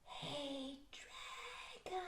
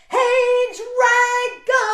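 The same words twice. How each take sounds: First: It is whispered very softly. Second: It is shouted very loudly.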